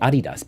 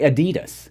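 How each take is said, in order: First: It is said the original German way. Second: It is said the common American way.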